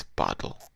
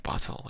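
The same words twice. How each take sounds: First: "bottle" with the T swallowed; glottal-stop T. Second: Said in the usual way. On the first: Shown as a demonstration. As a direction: say "bottle" with a catch in the throat for the T. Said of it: "it's bottle". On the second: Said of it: "instead of bottle".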